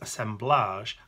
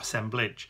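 First: The word ends with a soft 'ahzh' sound. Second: The word ends with a hard 'idge' sound. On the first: The speaker calls it right. "we pronounce it with that age bit at the end" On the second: The speaker calls it wrong. "rather than the idge"

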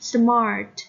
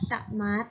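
First: The r sound is clearly pronounced. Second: The r sound is left out or weak. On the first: The speaker calls it right. "ออกเสียง r ด้วยนะ" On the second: The speaker calls it wrong. "ไม่ออกเสียงว่า"

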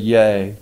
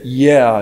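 First: The word is said like 'yay', rhyming with day. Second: The word is said like 'yeah', rhyming with air. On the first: The speaker calls it right. "instead of yay" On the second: The speaker calls it wrong. "He said, yeah"

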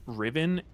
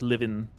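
First: The name begins with an R sound. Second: The name begins with an L sound.

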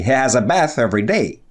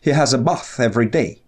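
First: It is said with an American accent. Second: It is said with a British accent.

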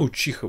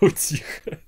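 First: The middle consonant is a 'ch' sound. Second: The middle consonant is a 't' sound. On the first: The speaker calls it right. "Можно я Учиха буду говорить" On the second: The speaker calls it wrong. "Википедия говорит Утиха, но Утиха это какая-то утка"

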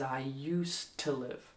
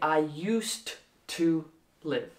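First: The word 'to' is said with a reduced, unstressed vowel. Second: The word 'to' is said with a full, stressed vowel. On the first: The speaker calls it right. "What we want to say is I used to live. So this O in the to, it's not stressed" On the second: The speaker calls it wrong. "we don't say I used to live"

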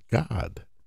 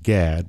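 First: The vowel sounds like the one in 'father'. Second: The vowel sounds like the one in 'cat'. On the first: The speaker calls it right. "it's actually pronounced God" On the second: The speaker calls it wrong. "Most people pronounce it Gad"

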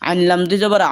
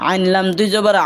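No difference in how they are said.

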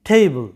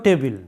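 First: The word is said with an English pronunciation. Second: The word is said with a Bengali pronunciation. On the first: The speaker calls it right. "ইংরেজিতে এইটার উচ্চারণটা হবে টেবিল" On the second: The speaker calls it wrong. "তোমরা এটা উচ্চারণটা করে থাকো টেবিল, আসলে এটা টেবিল বাংলাতে বলো ঠিক আছে"

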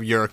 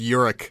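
First: The name is said as one syllable. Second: The name is said as two syllables. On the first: The speaker calls it wrong. "You kept calling yourself York" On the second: The speaker calls it right. "but it's Yurik"

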